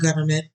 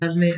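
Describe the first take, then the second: First: It is said in a plain, standard way. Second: It is said with a Southern twang, like 'guvment'. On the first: The speaker calls it wrong. "It's not government" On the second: The speaker calls it right. "You do have to say it like government. ... with the southern twang"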